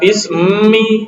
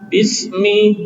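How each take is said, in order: First: The m syllable sounds heavy and thick. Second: The m syllable sounds light and thin. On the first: The speaker calls it wrong. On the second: The speaker calls it right.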